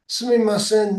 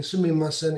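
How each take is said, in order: First: "Sumimasen" said high and loud, each syllable clear: su-mi-ma-sen; "Sumimasen" announced as a word to learn; clear Japanese demo. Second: Said in the usual way. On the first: Shown as a demonstration. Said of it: "this is really handy". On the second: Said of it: "raising your hand saying".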